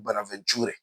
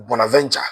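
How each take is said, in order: First: Bonaventure as "bona-ven-CHOO-reh"; Francophone pronunciation. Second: Bonaventure as "bona-VEN-cha"; Anglophone pronunciation. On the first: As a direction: give Bonaventure a French-style "ture" ending, final e sounded. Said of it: "French pro-, eh, pronunciation". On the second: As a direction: give Bonaventure its English ending, "cha". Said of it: "those of us who speak English". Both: Shown as a demonstration.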